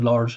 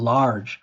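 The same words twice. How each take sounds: First: The vowel is closed, made at the front. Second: The vowel is open and fully stressed. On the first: The speaker calls it wrong. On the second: The speaker calls it right.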